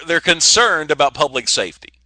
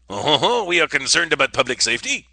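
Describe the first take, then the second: First: Said in the usual way. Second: Hammed-up French accent; stagey French accent. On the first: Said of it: "the best French accent". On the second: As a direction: put on your best mock Frenchman, lilting up at the end. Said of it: "the best French accent I could do".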